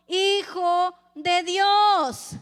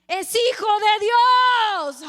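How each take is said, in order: First: Drawn out slowly, voice swelling; slow solemn proclamation. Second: Much louder and slower, booming like an echo; ringing echo. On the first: Preacher reading the accusers' claim, slow solemn proclamation. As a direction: proclaim it slowly, a touch louder. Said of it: "resonando, le hicieron eco". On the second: Preacher voicing the words echoing at Pilate, booming echo. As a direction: let it boom back slow and loud. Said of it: "le hicieron eco a Pilato así". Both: Acted.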